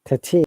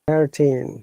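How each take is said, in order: First: The R sound after the vowel is dropped. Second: The R sound after the vowel is pronounced. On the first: "which is in British I P A" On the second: "American I P A. ... they're pronouncing R sound"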